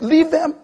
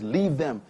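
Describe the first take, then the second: First: High, loud preacher's command; forceful command. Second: Said in the usual way. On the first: Retold or imitated. Preacher repeating the apostle's order, forceful command. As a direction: thunder out "Leave them".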